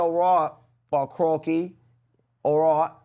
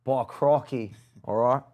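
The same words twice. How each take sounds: First: Put-on Australian accent. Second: Lightly mocked Australian accent; a hint of Australian accent. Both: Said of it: "in the accent".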